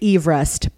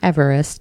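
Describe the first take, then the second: First: It uses the original surname's pronunciation. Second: It uses the common, everyday pronunciation. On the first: This is how the namesake said his name. The speaker calls it right. "it's actually Everest" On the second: This is how most people say the name. The speaker calls it wrong. "Not Everest, as we are all been, ... All been saying, like a bunch of rubes"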